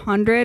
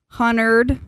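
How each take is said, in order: First: The D sound is fully pronounced in the word. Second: The D sound is dropped from the word. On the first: "instead of hundred" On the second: "omits letters"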